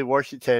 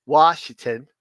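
First: Washington with an R sneaked in, "Warshington". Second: Washington said cleanly, no R, "Wash-ington"; without the r. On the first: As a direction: say Washington as "Warsh-ington", r before the sh. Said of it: "sometimes I say Washington". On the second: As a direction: say Washington the standard way, no R sound. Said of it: "I can say Washington". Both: Shown as a demonstration.

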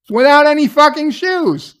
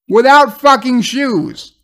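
First: "without any fucking shoes" much higher, hitting "fucking"; real disbelief climbing; real outrage peaking. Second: "without fucking shoes" louder and higher, slowed; real exasperation building; real outrage. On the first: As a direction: repeat it, even more outraged. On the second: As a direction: spell out the absurdity. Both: Real, not acted. Speaker outraged at the scene.

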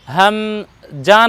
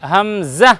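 First: হামজা with a plain j in the last syllable; wrong j sound. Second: হামজা said ham-za, with a buzzed z; buzzing z sound. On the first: Teacher shows learner what not to say, হামজা with j. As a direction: say হামজা as ham-ja, slowly split. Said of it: "হামজা নয়". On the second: Teacher corrects the j version, হামজা with z. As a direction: put a clear z at the end of হামজা. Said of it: "জা বর্ণ লাগাবো". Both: Shown as a demonstration.

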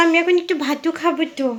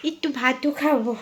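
First: Put-on baby talk. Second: Said in the usual way. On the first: Shown as a demonstration. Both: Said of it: "বলো".

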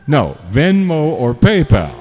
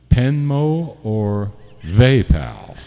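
First: Clear, firm "Venmo or PayPal" said right, a bit louder; corrected names. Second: Slow, tangled "Venmo or PayPal" coming out as Penmo or VayPal; tongue-slipped names. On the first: After his flub, firmly fixing the app names. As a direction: set it straight: "No, Venmo or PayPal". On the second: Thanking tippers, fumbling the payment app names slowly. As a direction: trip over "Venmo or PayPal", drawn out. Slip corrected by "No. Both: Real, not acted.

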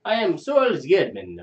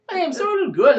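First: Slow, heavy mock Russian, a bit higher and louder; Russian accent. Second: Very high, loud, over-the-top Russian; hammed Russian accent. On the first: Taxi driver introducing himself, slow mock Russian accent. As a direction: drag out a stock Russian intro. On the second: Driver retries his name, hammed-up high Russian accent. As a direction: push the Russian cabbie to a squeaky extreme. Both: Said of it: "How do you do a Russian accent?".

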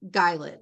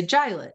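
First: Guylet with a hard G and long I, like pilot. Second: Gilet with a soft G, as JY-lit. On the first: Trainee sounding out a new word, Guylet with hard G. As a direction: say Guylet as GUY-lit, first syllable stressed. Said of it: "hard G, soft G, open syllable". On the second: Trainee tries another sounding-out, Gilet with soft G. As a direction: start Gilet with a J sound, first syllable stressed. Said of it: "soft G". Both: Shown as a demonstration.

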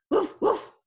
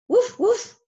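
First: Dog bark. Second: A louder, higher woof for the sheepdog; louder dog bark. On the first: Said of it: "A dog says". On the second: Sheepdog herding in story. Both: Pretend.

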